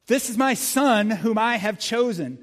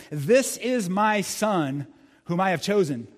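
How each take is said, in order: First: Higher, louder and slow, proclaimed; booming voice of God. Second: Said in the usual way. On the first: Shown as a demonstration. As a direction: thunder the verse from the cloud. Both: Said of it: "repeated louder".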